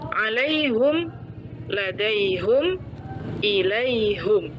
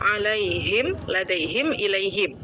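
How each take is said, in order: First: The vowel after the h is u. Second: The vowel after the h is i. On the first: This is how one particular reading tradition recites it. "pada bacaan Imam Hamzah, ... dibaca dhammah ha-nya" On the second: This is how the other readings recite it. "Dalam bacaan lain"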